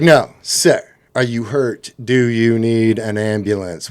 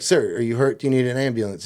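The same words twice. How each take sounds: First: "are you hurt", "need an ambulance" spelled out slowly, word by word; leading question. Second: Said in the usual way. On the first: Retold or imitated. Police nudging roommate toward "ambulance", leading question said deliberately. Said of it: "While they're nodding yes".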